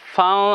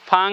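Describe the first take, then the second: First: The syllable is said with a heavy, thick sound. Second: The syllable is said with a light, thin sound. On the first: The speaker calls it right. "আমি আরবি উচ্চারণ করছি তো একটু মোটা হবে" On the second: The speaker calls it wrong. "আমরা যদি বাংলা বলতে যাই তাহলে উচ্চারণ কেমন হবে ফাং হবে"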